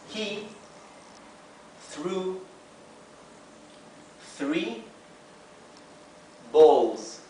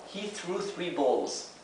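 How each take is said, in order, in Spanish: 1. Cada palabra se dice por separado y despacio. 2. Las palabras se unen y se dicen a velocidad natural. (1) "let's begin reading one word at a time" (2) "let's read it in real speed"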